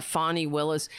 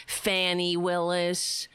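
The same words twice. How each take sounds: First: Said in the usual way. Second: Fannie Willis, drawn out slowly; slow sneering Fannie Willis; mocking mispronunciation.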